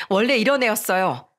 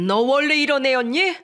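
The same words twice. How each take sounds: First: "이런 애였어요" as a falling statement, stressing "이런"; defiant echo. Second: "이런 애였니" pitched high, rising at the end; high rising question on "애였니"; incredulous question. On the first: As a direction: confirm "이런 애였어요" back at him, ending down. Defiant echo answering his question. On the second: Shocked father questions her true nature. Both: A narrator's reading.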